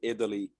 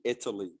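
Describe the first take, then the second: First: The T is flapped, sounding like a quick D. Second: The T is a clear, soft T sound. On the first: The speaker calls it wrong. "You never say Italy" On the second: The speaker calls it right. "It must be Italy"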